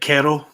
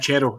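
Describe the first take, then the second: First: The word begins with a K sound. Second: The word begins with a CH sound. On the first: The speaker calls it wrong. "not kero" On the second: The speaker calls it right. "It says the C H sound"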